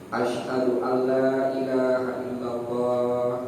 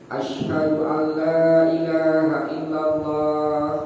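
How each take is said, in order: First: It is said in a low voice. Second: It is said in a high voice.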